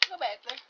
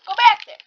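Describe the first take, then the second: First: Said in the usual way. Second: High, loud insistent yell; louder command. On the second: Real, not acted. Gamer yelling at a character to go back, loud. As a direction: shout it the third time.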